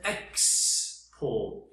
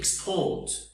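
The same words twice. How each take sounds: First: The first syllable is loud and stressed. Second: The first syllable is quiet, the second stressed. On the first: "Yani yüksek sesle başlıyorum" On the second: "Küçük sesle başlayıp"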